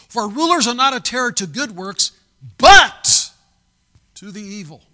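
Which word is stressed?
but. The word but is strongly stressed.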